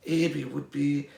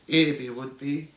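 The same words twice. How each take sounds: The two takes are said the same way.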